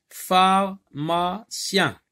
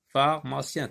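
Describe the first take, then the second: First: Pharmacien very slow and high, in three parts: phar, ma, cien; syllable by syllable. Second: Said in the usual way. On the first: Shown as a demonstration. Teacher splitting a word for pupils, slow separate syllables. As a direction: break "Pharmacien" into three loud, spaced syllables. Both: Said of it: "trois syllabes".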